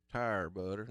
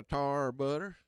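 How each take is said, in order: First: "Tire" said as tie-er, two beats; "Tire butter" with a full long "tire"; tire, corrected. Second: "tar" said like tar, a short flat ah; "tar butter" with "tar" rhyming with car; tar, a slip. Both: Real, not acted. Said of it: "not tar".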